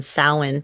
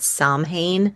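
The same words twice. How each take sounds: First: The word is said the Gaelic way. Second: The word is said the common English way. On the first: The speaker calls it right. "It's actually a Gaelic uh, pronunciation" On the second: The speaker calls it wrong. "A lot of people call it Samhain, but that is not how it's pronounced"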